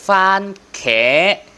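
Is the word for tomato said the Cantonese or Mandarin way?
Cantonese. It is said with the Cantonese pronunciation. "tiếng Quảng là fan khẽ"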